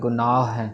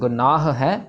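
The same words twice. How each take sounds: First: One stretched h sound joins the two words. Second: The two h sounds are pronounced separately. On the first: The speaker calls it wrong. "उसी हाहे को stretch करके उसके ऊपर फिर दुलामा लगा देते हैं" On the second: The speaker calls it right. "गुनाह वाला हो ख़त्म हो जाना चाहिए, फिर उसके बाद वाला हैं स्टार्ट होना चाहिए"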